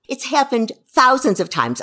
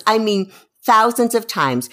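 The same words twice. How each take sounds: First: Thousands leaned on, a little higher; stress on thousands. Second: Thousands hit again, louder; insistent stress on thousands. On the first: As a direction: press on the word thousands. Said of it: "You think I'm kidding". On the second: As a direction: punch the word thousands to insist. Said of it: "I don't even mean, like, a few". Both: Real, not acted.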